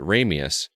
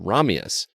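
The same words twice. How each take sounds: First: The name is said the American way. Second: The name is said the Russian way. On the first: It is the American pronunciation used in the film. "whenever he reads from the American perspective, he pronounces it Ramius" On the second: It is the Russian pronunciation of the name. "when he pronounces it from the Russian perspective, he pronounces it Ramius"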